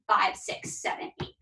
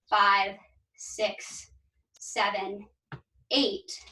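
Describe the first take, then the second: First: The numbers are counted quickly. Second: The numbers are counted slowly.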